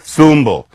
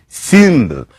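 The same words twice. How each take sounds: First: Said in the usual way. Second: "symbol" said sumbl with a rounded front vowel; "symbol" with a French-like u sound. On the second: Shown as a demonstration. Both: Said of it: "the cute loon sound in French".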